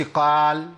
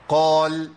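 First: Sustained قال with the mouth too wide, vowel thinned; full opening. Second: Sustained قال with heavy ق, lips kept close; partial opening. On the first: Teacher shows what not to say, full opening. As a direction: hold قال on one note, over-open after the ق. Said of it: "ما قلتش". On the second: Teacher shows the correct qaf, partial opening. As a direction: hold قال on one note with a dark, rounded vowel. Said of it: "الشفتين يبقوا قريبين من بعض". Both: Shown as a demonstration.

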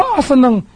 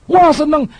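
First: Mock delight. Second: Higher, louder smug glee; mock delight. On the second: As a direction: mimic a pleased, smug believer. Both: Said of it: "Lalu engkau bilang".

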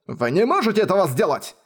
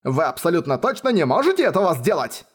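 First: Outraged bellow; roared. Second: Emphatic angry repeat; insistent roar. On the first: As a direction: roar it down at her. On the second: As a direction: stress on "абсолютно точно", raised. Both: A narrator's reading. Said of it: "проревела Радок".

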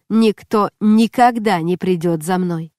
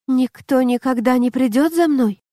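First: "никто никогда не придёт за мной" as a slow, firm statement; твёрдое утверждение. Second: "Никто никогда не придёт за мной" as a higher-pitched question; утверждение как вопрос. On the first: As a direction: dictate slowly, weight on "никогда". Наставник диктует усиленную фразу. (медленно и твёрдо, с упором на «никогда») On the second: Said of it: "превратил утверждение в вопрос". (выше, с вопросом: «Никто никогда не придёт за мной?») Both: A narrator's reading.

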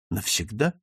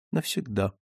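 First: "Навсегда" with a rising tune; "Навсегда" lifted at the end, seeking confirmation; questioning. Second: Falling, expressionless answer; subdued, final, automatic reply; mechanical repetition. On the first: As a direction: ask "Навсегда" as a question, ending upward. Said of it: "добавил Дик". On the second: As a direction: repeat it automatically, without feeling. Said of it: "машинально повторила она". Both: Acted.

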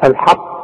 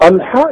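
First: الحق ending in a bouncing qalqala qaf; teacher shows the right الحق; echoing qaf. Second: الحا said with the final qaf dropped, mock-high; student's clipped الحا mocked by teacher; mocking wrong qaf. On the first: Shown as a demonstration. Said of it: "والقاف اذا وقفت عليها هنقلقلها". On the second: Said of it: "يا راجل حا ايه بقى".

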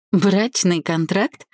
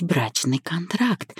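First: Slow, raised questioning echo; higher, drawn-out amused question; amused disbelief. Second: Said in the usual way. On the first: A narrator's reading. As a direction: query it as if tickled by the idea. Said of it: "хохотнула я".

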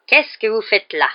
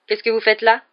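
First: Slow, loud, falling interrogation; suspicious. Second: Lighter, higher, rising question; friendly question. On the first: Caretaker confronts a pupil loitering in the corridor, suspicious. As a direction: challenge him word by word. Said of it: "demanda Rusard d'un air soupçonneux". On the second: Professor finds pupil in the corridor and asks, friendly. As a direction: ask with mild curiosity, no accusation. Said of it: "d'un ton très différent de celui de Rusard". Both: A narrator's reading.

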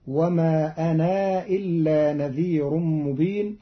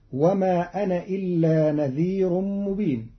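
First: أنا إلا بمد النون حركتين فقط ببطء; اقصر مد أنا حركتين في ترتيل متأنٍّ; قصر حركتين. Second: Said in the usual way. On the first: Shown as a demonstration. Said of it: "بقصرها حركتين هكذا". (قراءة قالون بقصر أنا حركتين) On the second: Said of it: "قرأ قالون كلمتي".

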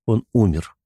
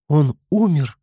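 First: Soft, sorrowful statement; quiet and sad. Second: High, startled frightened question; frightened cry. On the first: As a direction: say it gently with grief. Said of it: "негромко и печально произнёс Артём". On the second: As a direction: gasp it out in fear. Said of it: "испуганно воскликнула девушка". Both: A narrator's reading.

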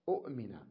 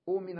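First: أؤمن as short u, glottal catch, then min; original two hamzas. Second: أؤمن said oo-min, with a smooth long first vowel; long initial oo. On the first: Teacher repeating the original form, with catch. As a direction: cut أؤمن after the first u. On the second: Teacher giving the changed form, long oo. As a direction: hold the oo in أؤمن, no catch. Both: Shown as a demonstration. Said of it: "أصلها".

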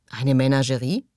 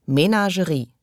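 First: "Eine Menagerie?" rising sharply at the end; puzzled question. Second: "Menagerie." entziffernd, mit fallendem Schluss; MENAGERIE als Aussage. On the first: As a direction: question "Eine Menagerie?" in disbelief, voice lifting on the last syllable. Thug fragt verwundert nach. („Eine Menagerie?“ verwundert fragend, am Ende steigend) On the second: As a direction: read out "Menagerie" as a discovery, ending on a fall. Thug entziffert das Schild. („Menagerie.“ als Feststellung, am Ende fallend) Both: A narrator's reading.

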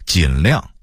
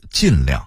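First: Said in the usual way. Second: 尽量 as jìnliàng, 尽 falling; falling tone on 尽 in 尽量, not dipping; Beijing-style 尽量, both syllables falling; Beijing dialect reading. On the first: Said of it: "北京话读尽量". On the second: Shown as a demonstration. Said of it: "北京话读".

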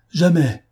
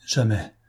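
First: Second jamais thrown out high and loud; the marquise refusing Thioblas, shouting jamais; shouted refusal. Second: Said in the usual way. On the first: A narrator's reading. Repeated refusal, rising outburst.

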